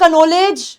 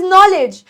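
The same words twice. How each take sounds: First: "knowledge" as ka-no-LAYJ, k pronounced; sounded k. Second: "knowledge" as NO-lej, k silent; correct pronunciation. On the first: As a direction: read "knowledge" slowly from its spelling, k and all. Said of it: "it is not". ("knowledge" ग़लत, कनोलेज जैसा) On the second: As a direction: say "knowledge" with no k and a short ending. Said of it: "silent है". ("knowledge" सही, के silent) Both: Shown as a demonstration.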